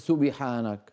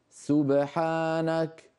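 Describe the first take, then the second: First: The echoed b leans toward an i vowel. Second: The echoed b has no i vowel. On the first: The speaker calls it wrong. "من أين جاءت الكسرة؟" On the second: The speaker calls it right. "سبحانك وليس سبحانك"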